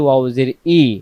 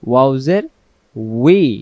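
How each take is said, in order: First: The final vowel is plain 'ee' with spread lips. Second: The final syllable starts with rounded lips, 'wee'. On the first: The speaker calls it wrong. "ওয়াও জের ই বললে দুই ঠোঁটে আসে না" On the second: The speaker calls it right. "দুই ঠোঁটটা গোল করে ওয়াও বলা শেষ হলে ওয়াও জের উই"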